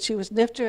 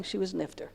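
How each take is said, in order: First: Said in the usual way. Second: Hushed, tearful report; quiet, grief-stricken murmur; quiet crying. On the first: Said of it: "So he said". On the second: Retold or imitated. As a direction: say it softly like a grieving old man. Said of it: "and he's crying".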